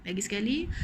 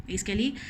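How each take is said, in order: Both takes have the same delivery.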